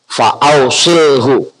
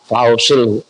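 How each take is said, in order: First: "fa ausilhu" drawn out slowly; slow model reading. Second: Said in the usual way. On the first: Shown as a demonstration. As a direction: stretch "fa ausilhu" syllable by syllable. ("fa ausilhu" dibaca perlahan dan panjang) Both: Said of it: "Itu bacanya".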